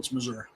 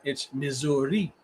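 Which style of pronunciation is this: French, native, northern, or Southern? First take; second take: Southern; French. First: It is said the Southern way. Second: It is said in the French style.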